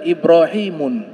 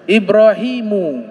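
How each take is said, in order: First: The name ends in un with an n. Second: The name ends in a plain u vowel. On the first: The speaker calls it wrong. "tidak boleh dibaca Ibrahimun" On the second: The speaker calls it right.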